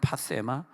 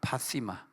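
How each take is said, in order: First: The middle vowel sounds like 'e'. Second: The middle vowel sounds like 'i'. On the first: "이 정욕은 파세마거든요" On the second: "그리스 가서 보니까 파시마로 발음하더라고요"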